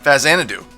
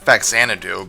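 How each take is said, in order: First: The consonant after the first vowel is 'z'. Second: The consonant after the first vowel is 'ks'. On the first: The speaker calls it right. "I'm pretty sure it's called Fezanadu" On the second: The speaker calls it wrong. "I always used to pronounce it Faxanadu"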